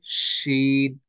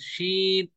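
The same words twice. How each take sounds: First: The vowel is stretched out longer. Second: The vowel is kept short. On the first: The speaker calls it right. "शी को थोड़ा खींचे" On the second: The speaker calls it wrong. "बाज लोग पढ़ते हैं शीन"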